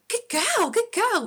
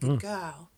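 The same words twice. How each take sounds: First: The voice is lively, high-energy and excited. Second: The voice is soft, gentle and soothing. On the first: It gets the dog more worked up. The speaker calls it wrong. "I used to do it like, good girl, which actually just fires her up more" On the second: It calms the dog down. The speaker calls it right. "the tone has to be quite like you're talking to a newborn baby"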